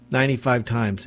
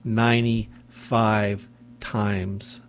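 First: Said in the usual way. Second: "ninety-five times" stretched out slowly, every syllable weighted; slowed emphasis. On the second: Shown as a demonstration. Host stressing how often the woman begged, slow and heavy. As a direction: drag out "ninety-five times" to let it sink in.

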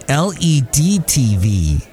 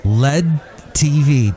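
First: "L E D" as three separate letters. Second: "led" as one word, like the metal lead; read as spelled. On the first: Podcaster explaining TV types, L E D spelled out. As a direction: spell out L E D before "T V". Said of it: "That's how I read it". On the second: Host reading the TV type his way, "led" as one word. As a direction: say "led" as a single syllable. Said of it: "I'm gonna read it like, like it's spelled". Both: Shown as a demonstration.

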